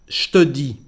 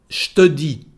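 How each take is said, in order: The two takes are said the same way.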